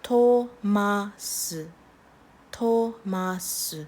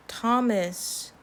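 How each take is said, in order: First: Thomas as to-ma-seu, in slow syllables; Korean-style pronunciation. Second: Said in the usual way. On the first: Shown as a demonstration. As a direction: say Thomas with long O and a separate final S. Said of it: "just a T". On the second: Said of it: "no T H in there".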